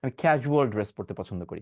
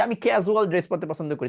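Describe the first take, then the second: First: ক্যাজুয়াল as "kha-zhual", lower; correct ZH pronunciation. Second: ক্যাজুয়াল as "kezual", with a plain z; wrong Z pronunciation. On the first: Teacher correcting learners, "kha-zhual" for ক্যাজুয়াল. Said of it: "এটাকে বলবেন ক্যাজুয়াল". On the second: Teacher mimicking learners' mistake, "kezual" for ক্যাজুয়াল. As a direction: say ক্যাজুয়াল with unaspirated k and z. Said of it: "এতদিন session করে যদি ক্যাজুয়াল বলেন". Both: Shown as a demonstration.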